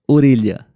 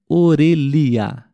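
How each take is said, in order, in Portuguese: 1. A palavra é dita rápido, com o som de 'li' misturado. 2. A palavra é dita devagar, com um som de 'li' claro. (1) "E aí você fala rápido" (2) "a palavra ficaria orelha"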